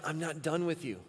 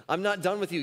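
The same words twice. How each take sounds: First: Said in the usual way. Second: "not" pressed in "I'm not done with you"; emphatic repeat. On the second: Retold or imitated. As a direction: lean hard on "not", firm and insistent. God's repeated promise, emphatic retake.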